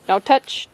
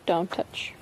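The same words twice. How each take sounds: First: Said in the usual way. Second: Dropped right down, much softer; softer repeat. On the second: Real, not acted. Mom repeats to her son not to touch, much softer. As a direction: say it again, quietly and firmly.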